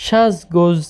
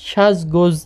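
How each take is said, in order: No difference in how they are said.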